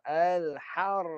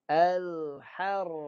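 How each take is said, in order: First: The r runs straight into the th. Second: The final th sound is left out entirely. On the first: "dicantum roh dengan sa" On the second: "ini contoh yang salah"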